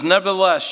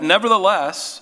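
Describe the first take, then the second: First: "Nevertheless" wyraźnie podkreślone, wyżej i głośniej; stressed nevertheless. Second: "Nevertheless" powiedziane wyżej i głośniej, z opadającym zakończeniem; podkreśl "Nevertheless" z naciskiem; stressed nevertheless. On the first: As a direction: uderz mocno w "Nevertheless". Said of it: "notice the prophet says". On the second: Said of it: "and I love this". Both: Shown as a demonstration.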